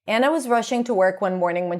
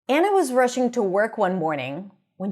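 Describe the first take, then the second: First: It is read flatly with almost no pitch change. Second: It is read with lively, varied pitch and phrasing. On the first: The speaker calls it wrong. "without varying my intonation and without pausing" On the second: The speaker calls it right. "read it normally using intonation and using phrasing"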